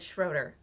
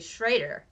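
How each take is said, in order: First: The first syllable uses the first vowel's sound. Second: The first syllable uses the second vowel's sound. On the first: This is how it is said where the speaker grew up. The speaker calls it wrong. "Where I grew up, this was said Schroeder" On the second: This is how the local Germans say it. The speaker calls it right. "Out here, they say Schrader. ... You pronounce the second vowel, not the first vowel"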